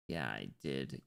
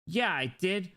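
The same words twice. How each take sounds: First: Low, quiet admission; low-key. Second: High, lively affirmation; emphatic. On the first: Streamer confirming to himself, low and quiet. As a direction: say it low and softly. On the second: Streamer playfully confirming the same thing, high and emphatic. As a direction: pitch it up, proudly emphatic. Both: Pretend. Repeats own answer, two ways.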